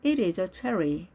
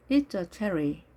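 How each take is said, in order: First: IT IS said as two words, uncontracted; careful model reading with separate "It is"; full form. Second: IT'S run into one syllable; contracted form. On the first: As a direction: say "It is" in full, slowly. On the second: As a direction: join "It's" to "a" as one unit. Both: Shown as a demonstration.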